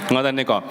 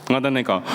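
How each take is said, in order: No difference in how they are said.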